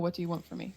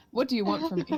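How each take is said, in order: First: A quiet, plain line where a yell would go; just say it, don't yell; a quiet reading of a line meant to be yelled; said instead of yelled. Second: A half-hearted in-character yell, held back; a half-yelled cry at the nightmare creature. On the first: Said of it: "I'm not gonna yell it, so I'm gonna just say". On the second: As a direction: call it out as if yelling, but hold back. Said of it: "I'm gonna yell at him". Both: Acted.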